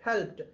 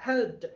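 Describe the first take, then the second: Both takes have the same delivery.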